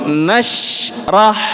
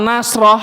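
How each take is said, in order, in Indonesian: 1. Bunyi sh selesai dulu sebelum r. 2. Bunyi sh langsung menyatu dengan r. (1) "shinnya habiskan dulu suaranya" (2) "seolah-olah shin dan ro-nya ini kok nembus"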